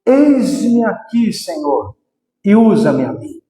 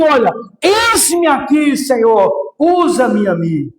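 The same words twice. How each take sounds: First: Slow, lower calm surrender. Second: Crying out to God. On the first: Shown as a demonstration. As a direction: say it slowly, lower and humble. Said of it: "você precisa só dizer". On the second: Retold or imitated. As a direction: cry out your offering to the Lord. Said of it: "eu só pude dizer assim".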